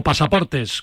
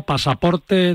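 First: "pasaportes" with an audible S at the end; with final S. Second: "Pasaporte" ending on an open E, no S; without final S. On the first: Host checking the passport's name, "pasaportes" with final S. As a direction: finish "pasaportes" on a clear plural S. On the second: Host checking the passport's name, "Pasaporte" without final S. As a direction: say "Pasaporte" in the singular, slowly. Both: Shown as a demonstration. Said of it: "con ese o sin ese".

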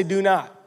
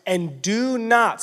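First: Said in the usual way. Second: "do not" drawn out slow and weighty; stress on do not. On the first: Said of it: "someone say". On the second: Shown as a demonstration. Preacher drives home the command, slow and stressed. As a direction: lean hard on "do not". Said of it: "someone say, "Do not".

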